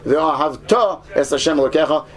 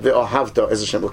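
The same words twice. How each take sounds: First: The stress in ve'ahavta falls on the final syllable. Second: The stress in ve'ahavta falls before the final syllable. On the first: It refers to loving in the future. The speaker calls it right. "make sure you say" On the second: It refers to loving in the past. The speaker calls it wrong. "and not"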